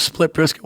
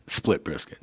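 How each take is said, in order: First: "split brisket" scolded at his friend, raised and incredulous; exasperated disbelief. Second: Said in the usual way. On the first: Retold or imitated. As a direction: spit out "split brisket" like it's absurd.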